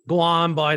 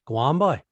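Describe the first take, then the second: First: It sounds annoyed and dismissive. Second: It sounds curious, rising like a question.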